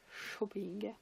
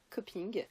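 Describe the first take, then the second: First: The name begins with a soft SH sound. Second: The name begins with a hard K sound.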